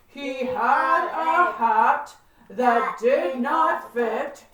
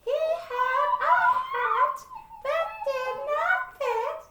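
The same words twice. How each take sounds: First: It is said in a husky voice. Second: It is said in a squeaky voice.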